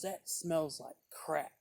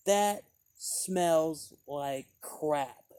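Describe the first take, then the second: First: Repeated dismissal. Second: Very slow, louder disdainful drawl; imitating the rude woman's verdict; rude dismissal. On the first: Retold or imitated. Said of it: "she just goes". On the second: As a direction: sneer it out slowly. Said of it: "saying the name of it".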